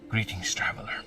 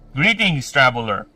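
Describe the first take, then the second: First: It is said in a put-on character voice. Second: It is said in the speaker's ordinary voice. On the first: The speaker calls it right. "I will do the Garth voice" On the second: The speaker calls it wrong. "Oh no, maybe I should do the"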